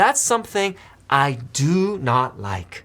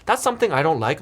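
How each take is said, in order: First: It is said slowly, with each word kept separate. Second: It is said smoothly and quickly, words run together. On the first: The dislike is strongly emphasized. "억양으로 더 천천히 하면은 임팩트가 훨씬 더 있을 겁니다" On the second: It sounds casual and conversational. "더 부드럽게 느낄 수 있고 괜히 더 빨리 얘기하는 느낌"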